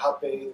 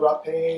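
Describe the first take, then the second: First: The word is said with a Portuguese pronunciation. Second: The word is said with a non-Portuguese pronunciation.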